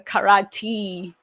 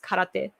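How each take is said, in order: First: It is said with an American accent. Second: It is said with a Japanese accent. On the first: The speaker calls it wrong. "like American people pronounce it" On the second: The speaker calls it right. "but it's karate"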